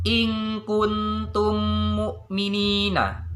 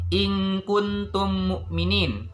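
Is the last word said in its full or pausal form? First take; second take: full; pausal. First: The last word is read on, not stopped. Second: The last word is cut short for stopping.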